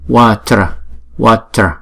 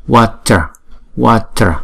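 The two takes are said the same way.

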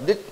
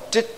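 First: The word begins with a d sound. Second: The word begins with a tr sound. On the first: The speaker calls it wrong. "không đọc đích, chứ nó nghe tội" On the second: The speaker calls it right. "cũng đọc trích chứ không đọc đích"

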